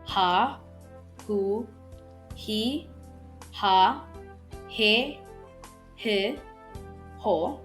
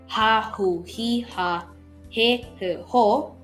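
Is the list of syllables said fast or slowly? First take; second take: slowly; fast. First: The syllables are said at a slower pace. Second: The syllables are said at a quicker pace.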